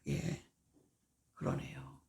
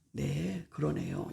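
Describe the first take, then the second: First: Quiet, submissive reply; 그러네요 said softly, under the breath; swallowed reply. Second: Meek agreement. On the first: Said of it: "그거를 죽이는 거야". (속으로 삭이며 조용히 대답) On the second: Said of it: "이렇게 해줘". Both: Shown as a demonstration.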